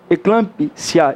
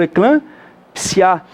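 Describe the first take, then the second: First: "eclampsia" drawn out as eclampi, long pause, sia; wrong syllable split. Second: "eclampsia" slowly as e-clam, pause, psia; correct syllable split. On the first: Teacher repeating the rejected split, "eclampsia" as eclampi... sia. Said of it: "eu não falo". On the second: Teacher showing the real pronunciation, "eclampsia" as eclam... psia. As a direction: pause before the P in "eclampsia", P and S together. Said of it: "eu falo". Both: Shown as a demonstration.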